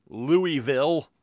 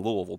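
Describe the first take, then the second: First: "Louisville" drawn out as LOO-ee-VILL, higher and louder; mock mispronunciation. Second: Said in the usual way. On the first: Shown as a demonstration. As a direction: say "Louisville" slowly with a clear "ee" in the middle and a full "vill". Mocks the non-local pronunciation.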